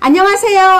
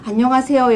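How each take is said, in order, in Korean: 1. 밝고 높은 톤으로 말해요. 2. 무덤덤하고 기운 없이 말해요. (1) "하이톤으로 같이 기분 좀 좋게" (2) "기운이 빠져 있거나 아니면 안녕하세요 여러분 이러면은 같이 기운 빠지잖아요"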